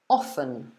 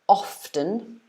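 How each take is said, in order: First: The T sound in the word is silent. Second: The T sound in the word is pronounced. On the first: "where you forget the T" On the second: "so you pronounce the T"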